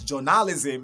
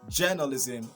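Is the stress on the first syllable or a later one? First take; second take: later; first. First: The stress is on a later syllable. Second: The stress is on the first syllable. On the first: The speaker calls it wrong. "Not journalism like many other people are going to say" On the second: The speaker calls it right. "the stress is still going to be on jaw"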